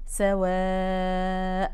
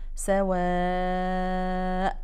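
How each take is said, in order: First: The long vowel is held for four counts. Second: The long vowel is held for five counts. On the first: "هنمدها أربعة" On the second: "أو خمسة"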